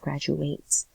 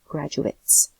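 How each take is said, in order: First: It is said in the verb form, ending like 'ate'. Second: It is said in the noun form, ending like 'it'. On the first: It names the action of graduating. The speaker calls it wrong. "instead of graduates" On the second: It names people who graduate. The speaker calls it right. "Since it's a noun, we pronounce it graduates"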